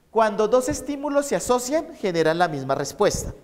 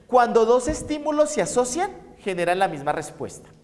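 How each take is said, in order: First: Teacher dictating a definition. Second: Said in the usual way. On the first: Shown as a demonstration. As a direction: read it out so students can write it down. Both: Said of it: "les voy a dictar esto".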